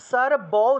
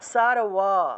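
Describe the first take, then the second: First: The consonant after 'sar' is a b sound. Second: The consonant after 'sar' is a w sound. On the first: The speaker calls it wrong. "এটা সর ব উচ্চারণ করা যাবে না" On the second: The speaker calls it right. "এভাবে ওয়া উচ্চারণ আসবে"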